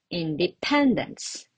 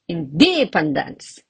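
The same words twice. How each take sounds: First: The stress is on the third syllable. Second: The stress is on the second syllable. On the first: The speaker calls it right. "And the correct one" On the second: The speaker calls it wrong. "Or I can even say"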